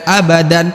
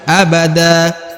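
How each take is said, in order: First: The word ends with an n sound. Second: The word ends with a plain a vowel. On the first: This is the full form, not used when stopping. The speaker calls it wrong. "bukan abadan" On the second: This is the form used when stopping at the verse end. The speaker calls it right. "tapi abada"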